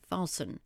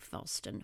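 First: The T sound is left silent. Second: The T sound is clearly pronounced. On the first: The speaker calls it right. "it's a silent T" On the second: The speaker calls it wrong. "We don't really say fasten"

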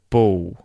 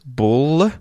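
First: The final L sounds like a W vowel. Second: The final L is fully pronounced as an L. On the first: "we will sort of mute the L and we don't pronounce it like a L, and it sounds more like a O, a W kind of sound" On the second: "So that is with the L well pronounced"

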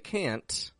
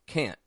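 First: The final T is clearly released. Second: The final T is stopped, not released. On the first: "I didn't pronounce the T, did I? I didn't say can't" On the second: "we make a stop T"

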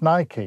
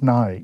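First: The word is said the American way. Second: The word is said the British way. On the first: "In America, it's Nike" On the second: "In England, it's Nike"

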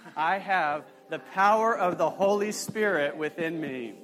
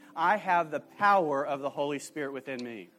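First: It is said with strong, believing conviction. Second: It is said plainly, without special conviction. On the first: "let's say it again like you believe it" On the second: "Say this with me"

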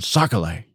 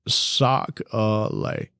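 First: It is said in a plain accent. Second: It is said in a Louisiana accent. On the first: The speaker calls it wrong. "it doesn't sound the same as saying sock-a-lay" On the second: The speaker calls it right. "Can you demonstrate that accent?"

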